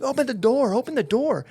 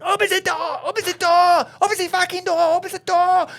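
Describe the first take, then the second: First: High-pitched, urgent mock scream; retold screaming. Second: Put-on very high, loud German-accented scream; German man screaming. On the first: Panicked passenger at the exit, retold screaming. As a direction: act out screaming to get out, slightly held back. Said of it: "I'm screaming at the top of my lungs". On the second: German passenger at the blocked exit, frantic German-accented screaming. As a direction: imitate a panicked German shrieking repeatedly. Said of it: "this German dude, and he's going".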